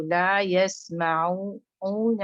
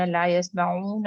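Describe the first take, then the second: First: لا یسمعون slow, the عین light, lips rounded only after it; correct recitation. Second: لا یسمعون with the lips rounded already on the عین; the mistake: round the lips too early in لا یسمعون; wrong recitation. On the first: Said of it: "آپ نے عین بولنے کے بعد او، پھر آپ ہونٹوں کو گول کریں". (لا یسمعون صحیح طریقے سے، عین کے بعد ہونٹ گول) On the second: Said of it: "ورنہ". (لا یسمعون غلط، عین پر ہی ہونٹ گول) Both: Shown as a demonstration.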